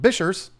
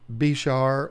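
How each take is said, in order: First: It sounds like bishers, ending in an s. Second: It sounds like bishar, with a sh sound. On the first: "be a weirdo like Tanner Serpa and call him Bishers" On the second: "You might say Bishar"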